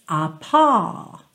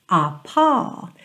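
The two takes are said the same way.

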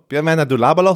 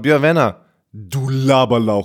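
First: It is said in a normal voice. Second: It is said haltingly in a deeper voice.

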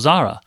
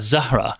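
First: The name is said in an Indian way. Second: The name is said with a hard Arabic H. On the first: It reflects her family's Indian roots. "the closer pronunciation to where my, you know, her Indian and parents and grandparents would be" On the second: It aims to sound authentically Arabic. "more sort of accurately Arabic will call her Zahra"

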